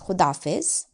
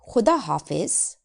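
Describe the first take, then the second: First: The two words are run together, shortened. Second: It is said as two separate full words.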